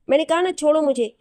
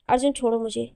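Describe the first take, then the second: First: Louder and higher, repeating the demand; angry insistence. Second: Said in the usual way. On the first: Acted. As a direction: raise the voice, she has said it already.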